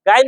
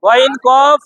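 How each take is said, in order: First: "গাইন" with an open aa vowel; wrong pronunciation. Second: "গইন কফ" with full, rounded o vowels; heavy pronunciation. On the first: Teacher quoting the students' slip, "গাইন" with open aa. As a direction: say "গাইন" thin, with aa after the g. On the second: Teacher modelling the corrected letters, heavy rounded "গইন কফ". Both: Shown as a demonstration. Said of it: "গাইন না কিন্তু".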